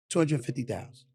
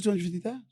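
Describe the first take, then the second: First: Said in the usual way. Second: "Two hundred fifty thousand" said again, higher and pointed; insistent repeat. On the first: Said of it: "I looked at him and I was like this". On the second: Retold or imitated. Repeating the figure to Jordan, higher and insistent. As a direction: repeat the number so he can't miss it. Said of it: "I said".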